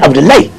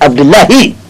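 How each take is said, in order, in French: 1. Le nom se termine par un son court 'laye'. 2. Le nom se termine par un son séparé 'la-hi'. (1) "Vous ne verrez jamais Abdoulaye" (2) "C'est Abdoulahi"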